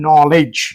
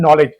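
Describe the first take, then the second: First: The word starts with a k sound. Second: The word starts with an n sound. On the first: The speaker calls it wrong. "અગર આપણે કે પ્રમાણે વાંચવા જઈએ તો" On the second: The speaker calls it right. "અને શું વાંચીએ છીએ આપણે?"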